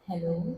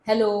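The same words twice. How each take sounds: First: The word is spoken very softly. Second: The word is shouted loudly. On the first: "अब मैं एकदम ही धीरे बोल रही हूँ" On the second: "if I start shouting like"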